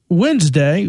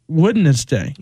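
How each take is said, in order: First: Some letters are silent in the word. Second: Every letter in the word is sounded. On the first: This is how most people say it. The speaker calls it wrong. "a lot of people say Wednesday" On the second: This matches the spelling. The speaker calls it right. "It's Wednesday. ... You're supposed to say it how you spell it"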